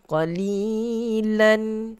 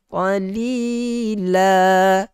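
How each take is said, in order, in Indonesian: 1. Kata ini berakhir dengan bunyi n. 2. Kata ini berakhir dengan vokal a panjang. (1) "sepatutnya qalilan" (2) "kalau kita berhenti, kita tukarkan tanwin itu kepada huruf mad"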